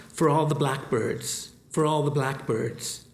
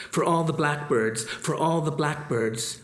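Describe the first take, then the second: Both takes have the same delivery.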